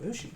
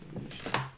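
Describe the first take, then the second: First: The first vowel has no falling pitch. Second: The first vowel has a falling pitch. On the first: The speaker calls it wrong. "Not Mushi" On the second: The speaker calls it right. "It's Mushi. Because it's a descending accent"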